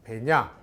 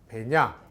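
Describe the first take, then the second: First: The vowel is kept short. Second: The vowel is kept short.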